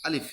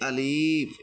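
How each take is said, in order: First: The word is said quickly and short. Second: The word is said slowly and drawn out. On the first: The speaker calls it right. "একটু তাড়াতাড়ি বলতে হবে।" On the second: The speaker calls it wrong. "এখন কেউ যদি আলিফ এরকম ভাবে বলে তাহলে কিন্তু সেটা তারটা হবে না।"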